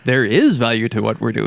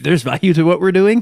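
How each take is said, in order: First: It sounds like a confident, firm statement. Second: It sounds like a doubtful, surprised question. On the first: The speaker asserts that the work has value. The speaker calls it right. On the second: The speaker questions whether the work has value. The speaker calls it wrong.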